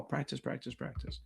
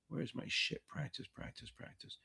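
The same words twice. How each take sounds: First: Said in the usual way. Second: Whispered. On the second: Real, not acted. Muttering while searching for playlist.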